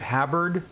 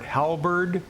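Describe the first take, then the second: First: The L sound is left out of the word. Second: The L sound is pronounced in the word.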